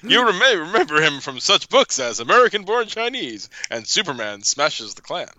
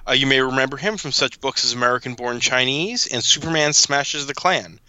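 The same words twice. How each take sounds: First: It is read in a put-on announcer character voice. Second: It is read in the speaker's normal voice. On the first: "the absolutely delightful" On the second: "I was really hoping you would read that in the Troy McClure voice"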